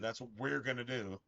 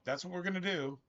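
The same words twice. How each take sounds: First: The stress falls on "we". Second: No special stress falls on "we".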